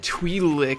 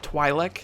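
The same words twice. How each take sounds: First: The first syllable does not sound like twilight. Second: The first syllable sounds like 'twi' in twilight. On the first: The speaker calls it wrong. "I said something stupid" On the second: The speaker calls it right. "that's how you say it, Twi'lek, like Twilight"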